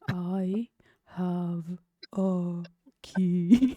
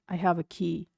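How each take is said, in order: First: It is said slowly and threateningly. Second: It is said in a plain, ordinary way.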